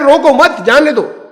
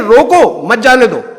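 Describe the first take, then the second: First: The pause comes after mat. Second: The pause comes after roko.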